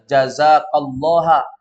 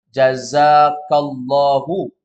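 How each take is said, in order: First: The word ends with an 'a' vowel. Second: The word ends with an 'u' vowel. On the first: God is the one who receives. The speaker calls it wrong. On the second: God is the one who gives. The speaker calls it right.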